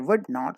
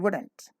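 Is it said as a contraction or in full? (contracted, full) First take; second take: full; contracted. First: It is said in full as two words. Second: It is said as one contracted word. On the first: The speaker calls it wrong. "Don't say would not" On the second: The speaker calls it right. "say wouldn't"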